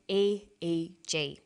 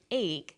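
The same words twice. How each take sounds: First: E E G as three separate letters, slowly; spelled letter by letter. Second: Eeg as one syllable, "eeg"; pronounced as word. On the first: Teacher showing the right way, E E G letter by letter. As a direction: say E E G slowly, each letter apart. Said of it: "we say E E G". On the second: Teacher showing the wrong way, eeg said as one word. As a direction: run the letters together into the single word eeg. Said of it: "We don't pronounce it eeg". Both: Shown as a demonstration.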